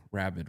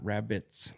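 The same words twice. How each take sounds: First: "rabid" ending on a D sound. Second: "rabbits" ending in a T sound plus S. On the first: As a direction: say "rabid" with a final D, not T. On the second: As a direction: say "rabbits" with T, not D. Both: Shown as a demonstration. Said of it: "rabid with a D".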